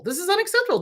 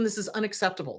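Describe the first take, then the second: First: "unacceptable" said much higher, stressed hard; emphatic repeat. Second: Said in the usual way. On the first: Real, not acted. Telling viewers what to tell senators, emphatic repeat. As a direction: hammer the repeat of "unacceptable" up high.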